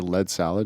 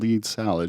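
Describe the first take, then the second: First: 'Lead' is said to rhyme with 'bed'. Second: 'Lead' is said to rhyme with 'seed'. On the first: The name is said as its creator intends. The speaker calls it right. "I'll tell her to play lead salad" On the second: The name is said as the voice assistant says it. The speaker calls it wrong. "She'll correct me"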